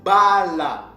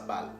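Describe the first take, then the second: First: The word is said as two syllables. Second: The word is said as one syllable. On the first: The speaker calls it right. "ça s'est prononcé Bala" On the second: The speaker calls it wrong. "ça ne se prononçait pas comme ça, Baal"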